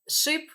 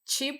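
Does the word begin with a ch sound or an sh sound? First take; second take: sh; ch. First: The word begins with an sh sound. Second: The word begins with a ch sound.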